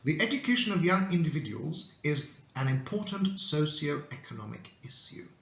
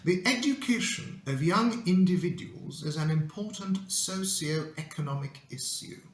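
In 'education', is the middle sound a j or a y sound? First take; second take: y sound; y sound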